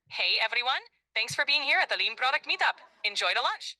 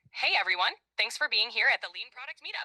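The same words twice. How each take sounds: First: Put-on English with a Greek accent; Greek-accented English, upbeat. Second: Put-on light Greek accent on English. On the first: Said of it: "speak English with a Greek accent?". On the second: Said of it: "I want you to speak more like me".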